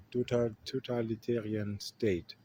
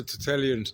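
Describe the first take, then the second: First: False start on "tota-", then "totalitarian" syllable by syllable; working out the word. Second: "totalitarian" garbled into roughly "tu-telian"; tripping over the word. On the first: Vlogger finally managing a hard word, careful "totalitarian". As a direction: get all of "totalitarian" out after a stumble. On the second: Vlogger failing to say a hard word, fumbled "totalitarian". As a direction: stumble on "totalitarian", swallowing its middle syllables. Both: Real, not acted. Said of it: "I still cannot say this word".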